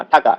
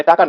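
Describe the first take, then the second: First: "টাকা" begun with an aspirated t, thaka. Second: "টাকা" with a dry initial t; no puff of air opening "টাকা"; unaspirated T. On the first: Teacher corrects the T sound, aspirated "টাকা". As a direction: puff air on the t of "টাকা". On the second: Teacher contrasts word for money, unaspirated "টাকা". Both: Shown as a demonstration. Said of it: "টাকা না, টাকা".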